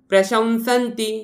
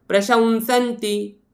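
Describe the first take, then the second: Both takes have the same delivery.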